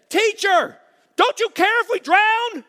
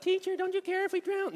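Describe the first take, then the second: First: High, loud, panicked plea; panicked cry. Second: High, loud, frantic plea; freaking out. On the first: Disciples screaming to Jesus in the storm, panicked high cry. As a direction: shriek it like terrified disciples in a sinking boat. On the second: Pastor acting disciples freaking out, high frantic cry. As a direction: cry it out like men about to drown. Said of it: "these guys were freaking out". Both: Acted.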